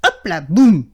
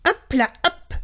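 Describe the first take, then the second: First: Mouse tumbling. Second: Bouncy hop. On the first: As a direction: lower and louder on the crash, boum landing hard. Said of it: "fait Souriceau en tombant de l'arbre". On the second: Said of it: "fait Panache en bondissant". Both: A narrator's reading.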